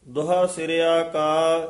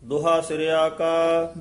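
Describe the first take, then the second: Both takes have the same delivery.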